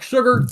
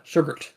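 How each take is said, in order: First: The name ends on a plain R sound. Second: The name ends with a T or D sound. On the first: The speaker calls it wrong. "I have to relearn that myself" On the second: The speaker calls it right. "Apparently it's like sugared"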